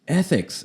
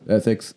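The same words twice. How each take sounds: First: It is said with exasperated incredulity. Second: It is said flatly, without any emphasis.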